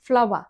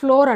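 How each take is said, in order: First: It sounds like 'flower'. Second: It sounds like 'floor'. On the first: The speaker calls it right. "మనం మామూలుగా ఫ్లవర్ని ఎలా పలుకుతాం?" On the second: The speaker calls it wrong. "మనం ఏమంటాం? ఫ్లోర్ అంటాం. అది ఫ్లోర్ కాదు"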